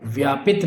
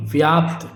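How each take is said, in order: First: व्यापित as "vyaa-pit"; added i before t. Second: व्याप्त as "vyaapt"; pt cluster. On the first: Teacher showing the mistake, व्यापित with an extra "i". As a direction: say व्यापित in two syllables. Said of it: "व्यापित नहीं". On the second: Teacher correcting the word, व्याप्त with no vowel before "t". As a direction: close व्याप्त on a joined "pt". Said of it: "शुद्ध को देखिए". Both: Shown as a demonstration.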